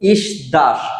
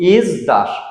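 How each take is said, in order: First: It begins with a hissing s sound. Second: It begins with a buzzing z sound. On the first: The speaker calls it wrong. "আমরা নর্মালি এটা শব্দটার উচ্চারণ করব" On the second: The speaker calls it right. "এর উচ্চারণটা হবে ইজ দাস"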